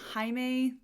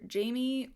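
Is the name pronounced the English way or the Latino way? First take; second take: Latino; English. First: The name is given a Latino pronunciation. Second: The name is given an English pronunciation. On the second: "so I'm just gonna stick with Jamie"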